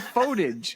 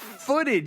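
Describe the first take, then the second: First: The first syllable sounds like photo. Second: The first syllable sounds like foot. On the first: The speaker calls it wrong. "You say footage" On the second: The speaker calls it right. "It's stock footage"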